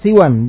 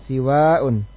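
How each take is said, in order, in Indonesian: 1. Huruf s diikuti oleh i pendek. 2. Huruf s diikuti oleh i panjang. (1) "siwan, bi kasri sin wal qasr" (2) "siwa'un bi kasri sin dengan kasra sin wal mad dan mad"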